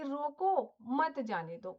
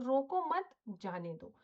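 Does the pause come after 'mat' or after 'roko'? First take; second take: after roko; after mat. First: The pause comes after the word 'roko'. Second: The pause comes after the word 'mat'. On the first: Stop it; do not let it go. "रोको के बाद अगर comma लगा दूं" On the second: Do not stop it; let it go. "यहाँ पर रोको मत के बाद मैं कॉमा लगा देती हूँ।"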